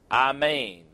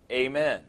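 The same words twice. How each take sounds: First: Amen drawn out as ah-MAYN; amen in Hebrew style, "ah-mayn"; Hebrew pronunciation. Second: Said in the usual way. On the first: Shown as a demonstration. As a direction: say amen slowly with a broad "ah" first. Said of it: "The Hebrew words amen". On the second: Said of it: "prayer is concluded with a statement".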